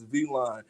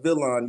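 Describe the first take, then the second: First: It begins with a long 'vee' sound. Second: It begins with a short 'vil' sound. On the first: The speaker calls it right. "It's V Line" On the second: The speaker calls it wrong. "It's not Villain"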